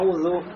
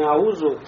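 First: The middle consonant is a voiced th sound. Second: The middle consonant is a plain z sound. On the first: The speaker calls it right. "а «аузу»" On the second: The speaker calls it wrong. "здесь будет не «аузу»"

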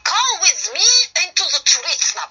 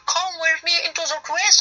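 First: It is said harshly with a Russian accent. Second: It is said imitating an American accent. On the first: The speaker calls it wrong. "но с русским акцентом. прямо так вот жестко" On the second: The speaker calls it right. "делать из себя, типа, американца"

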